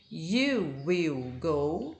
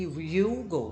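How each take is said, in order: First: "You will go" said slowly with every word apart; full form. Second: "you'll go" run together as one quick syllable; contracted form. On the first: Teacher models the full form for students, slow and clear. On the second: Teacher contrasts the contraction for students, quick and joined. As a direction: glide "you'll go" into a short contraction. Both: Shown as a demonstration. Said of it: "Muda a pronúncia".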